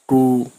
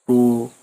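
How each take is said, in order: First: The first sound is blurred, as if toothless. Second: The first sound is blurred, as if toothless.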